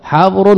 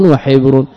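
First: حبر with a short "a" after the ح, "habr"; fatha on the ha. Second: وحبر with a short "i" after the ح, "wa-hibr"; kasra on the ha. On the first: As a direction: say حبر slowly as "habr", open vowel. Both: Shown as a demonstration. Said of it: "بفتح الحاء وكسرها".

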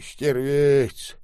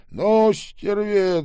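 First: Put-on louder indignant old man; angry old man. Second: Much higher, louder and slow; furious old man. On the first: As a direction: spit the insult. Old man repeats the insult. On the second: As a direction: drag out the insult in rage. Old man repeats, escalating. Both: A narrator's reading.

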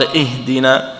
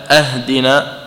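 First: Said in the usual way. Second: أهدنا starting on an a-sound, "ahdina"; opening hamza with fatha. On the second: Shown as a demonstration. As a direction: open أهدنا with "a" in place of "i". (أهدنا بفتح الهمزة) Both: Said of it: "بدل أن قال".

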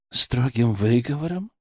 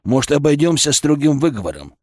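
First: Softer, rising echo question; sceptical. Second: Said in the usual way. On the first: A narrator's reading. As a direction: repeat it back in quiet disbelief. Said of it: "Киселёв скептически хмыкнул".

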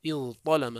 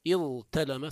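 First: اضطلم with held ظ then heavy emphatic ط; substituted form. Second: اضتلم with held ظ then light plain t; original form. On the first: Teacher shows what they said instead, اضطلم with heavy ط. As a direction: say اضطلم as iẓ-ṭalama, thickening the t. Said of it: "ثم قالوا". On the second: Teacher shows the form before substitution, اضتلم with light t. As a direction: say اضتلم as iẓ-talama, t unemphatic. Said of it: "إذا جاءوا به على وزن افتعل". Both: Shown as a demonstration.

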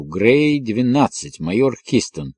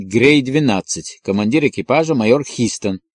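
First: Slow, drawn-out repeat; writing it down. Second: Said in the usual way. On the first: A narrator's reading. Colleague noting down the bomber's name, slowly. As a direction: repeat it slowly as you jot it down. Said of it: "Подожди, запишу".

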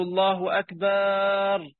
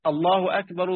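First: "أكبر" said as "أكبار" with a long drawn a; "الله أكبر" with the wrong long madd on "أكبر"; wrongly stretched takbir. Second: Said in the usual way. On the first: Shown as a demonstration. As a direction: stretch the b-vowel of "أكبر" far too long. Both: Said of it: "أكبر جمع كبر اللي هو الطبل".

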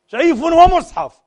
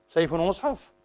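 First: Much higher, louder, slow jeer; mocking slogan. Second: Said in the usual way. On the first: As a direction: bellow it like a fanatic, in scorn. Slogan mocked again. (سيف ومصحف بصراخ ساخر بطيء)

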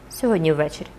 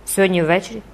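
First: "Сьогодні ввечері" as a lower statement without a rise; confirming. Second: "Сьогодні ввечері" as a question, rising at the end. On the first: Phoebus confirms tonight to Jean, "Сьогодні ввечері" stated low. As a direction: settle "Сьогодні ввечері" low, as a firm answer. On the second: Jean checks with Phoebus about tonight, "Сьогодні ввечері" asked with a rise. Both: A narrator's reading.

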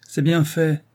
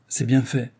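First: Higher-pitched, emphatic cry; vindictive exclamation. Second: Said in the usual way. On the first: A narrator's reading. Wife on hearing of Rose's death, exclaiming. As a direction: exclaim it with spite. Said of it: "s'écria madame Brun".

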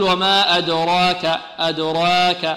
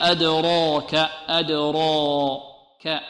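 First: "أدراك" with a light, thin ra and alif; slow, showing the mistaken light "أدراك"; نطق خاطئ مرقق; wrong pronunciation. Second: "أدراك" slow, with a heavy ra and alif; نطق صحيح مفخم; correct pronunciation. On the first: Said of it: "هل نقول ... غير صحيح". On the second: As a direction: draw out "أدراك" very slowly, full and heavy. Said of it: "غير صحيح". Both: Shown as a demonstration.

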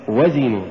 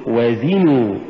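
First: وزنوا short, run together as one word; wrong stress. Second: وزنوا with و set apart and زنوا pushed; push after waw. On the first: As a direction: say وزنوا quickly, weight on the و. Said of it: "ولا تقل". (نطق وزنوا دون دفع الزاي) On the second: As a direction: lean on the ز in وزنوا. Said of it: "قل". (نطق وزنوا بدفع الزاي بعد الواو) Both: Shown as a demonstration.

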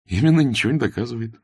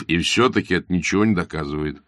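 First: Quick, sure repetition with «Именно» stressed; with confidence. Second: Said in the usual way. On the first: Acted. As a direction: snap it back like a confident chess player. (с уверенностью, быстро, с ударением на «Именно») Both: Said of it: "повторил Аркадий с уверенностью".

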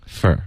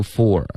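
First: "for" reduced to "fur"; weak form. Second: "for" with its full "or" vowel; full form. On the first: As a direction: weaken the vowel of "for" to a short "fer". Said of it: "发成fur". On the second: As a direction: say "for" unreduced, as a standalone word. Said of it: "我们会弱读for". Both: Shown as a demonstration.

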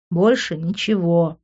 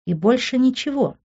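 First: Slow, weary "больше ничего" at usual pitch; exasperated, drawn-out "больше ничего"; eye-rolling reply. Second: "ничего" lifted high as a question; double-check, pitching "ничего" up; questioning high tune on "ничего". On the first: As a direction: repeat "больше ничего" slowly as a tired statement. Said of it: "закатил я глаза". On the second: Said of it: "уточнил Тео". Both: A narrator's reading.

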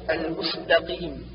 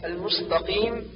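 First: المستقيم with thin light s; true seen. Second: المستقيم with heavy emphatic s; seen as sad. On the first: Teacher corrects, المستقيم with clear thin s. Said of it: "والصواب". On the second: Teacher shows the error, المستقيم with a ص sound. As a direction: darken the س of المستقيم into ص. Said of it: "جعل السين صادا". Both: Shown as a demonstration.

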